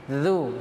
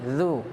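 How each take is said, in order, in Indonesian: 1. Konsonannya lembut, dengan ujung lidah sedikit keluar. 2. Konsonannya lembut, dengan ujung lidah sedikit keluar.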